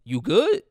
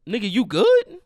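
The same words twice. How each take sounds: First: High, loud mock question, jumping up at the end; dad's clueless check-in. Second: Loud, high taunting question; mocking payback. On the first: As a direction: imitate dad's tactless check-in, voice shooting up. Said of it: "he goes like". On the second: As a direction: throw dad's question back at him, much louder. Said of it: "walk into the casket like".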